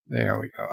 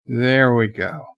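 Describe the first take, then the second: First: "There we go" said again much softer, under the breath; quiet repeat. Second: Said in the usual way. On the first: Shown as a demonstration.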